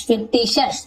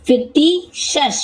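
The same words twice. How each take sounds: First: Said in the usual way. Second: Fictitious very slowly broken as "fik-tee ... shas"; syllable by syllable. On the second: Shown as a demonstration. Teacher sounding out an example word, fictitious in slow separated parts. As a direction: stretch out fictitious, pausing before the final "shas". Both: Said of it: "तो इस प्रकार से शस".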